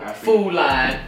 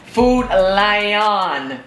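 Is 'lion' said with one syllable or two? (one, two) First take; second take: one; two. First: Lion is said as one syllable, like line. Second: Lion is said with two syllables. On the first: This is how the community commonly says it. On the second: This is the store's official name.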